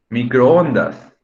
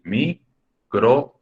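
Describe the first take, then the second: First: Microondas said slowly, louder, stretching the oo; sounding out. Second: Microondas drawn out very slowly with a rise; sounding out. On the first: Teacher reading a student's example aloud, slow. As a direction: draw out Microondas so both o vowels are heard. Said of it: "Bajo lo que les acabo de explicar". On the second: Teacher demonstrating the hiatus to the class, slow. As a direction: stretch microondas slowly to show the vowel split. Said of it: "Es decir". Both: Shown as a demonstration.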